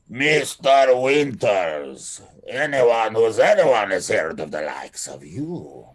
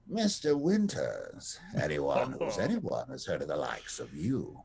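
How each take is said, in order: First: It is said with a Russian accent. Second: It is said in a softer, lilting accent.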